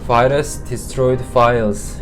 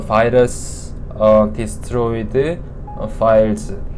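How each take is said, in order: First: The phrase flows smoothly without breaks. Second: The phrase is broken by a hesitant pause. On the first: The speaker calls it right. "자연스럽게" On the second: The speaker calls it wrong. "이러면 발음과 유창성에서 점수가 다 깎이는 거죠"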